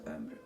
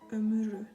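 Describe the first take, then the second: First: No vowel sounds between the m and r. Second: A vowel sounds between the m and r.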